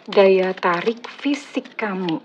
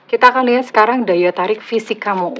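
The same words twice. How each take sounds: First: Slow, drawn-out words for suspense; a slow, teasing reveal for the viewer; slow teasing repeat. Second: Said in the usual way. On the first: Shown as a demonstration. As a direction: stretch out "Daya tarik fisik kamu" slowly to build suspense. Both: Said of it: "Wah, ini yang seru nih ya".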